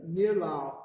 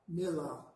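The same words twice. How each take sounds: First: Nilau said clearly, short i as in sit; careful demo word. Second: Nilau repeated softer, short i as in sit. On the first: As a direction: model nilau slowly for the class. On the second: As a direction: echo nilau gently for the class. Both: Shown as a demonstration. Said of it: "That's like the I in sit".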